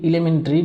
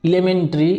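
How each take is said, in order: The two takes are said the same way.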